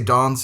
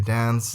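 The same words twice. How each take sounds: First: The vowel in dance is a British broad a. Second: The vowel in dance is an American flat a. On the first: This is how people at home say it. "We say" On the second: This is how the listener's people say it. "you say"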